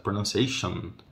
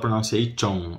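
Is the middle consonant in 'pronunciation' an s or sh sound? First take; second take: sh; s. First: The middle consonant is close to a sh sound. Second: The middle consonant is a plain s sound. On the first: The speaker calls it right. "é chão. Como se fosse um X quase" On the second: The speaker calls it wrong. "Não fala pronunciation"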